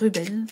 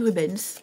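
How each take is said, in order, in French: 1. Le nom se termine sans son S. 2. Le nom se termine avec un son S. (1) "je ne sais pas si on prononce le S" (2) "je ne sais pas si on prononce le S"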